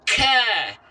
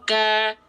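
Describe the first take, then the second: First: The k is released with a strong, long breath. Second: The k is released with a light, short breath. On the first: The speaker calls it wrong. "kaf yang berlebihan, hamsnya itu seperti ini" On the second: The speaker calls it right. "cukup percikan nafas"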